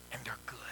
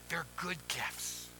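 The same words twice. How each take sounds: First: Hushed whisper to the congregation. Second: Quiet, slow reassurance; soft and slow. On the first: Pastor whispers the good news to the congregation, hushed. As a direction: lean in and whisper it. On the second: Pastor gently repeats the promise to the folk, soft and slow. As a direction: let each word land softly and slowly. Pastor softly assures the congregation. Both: Acted.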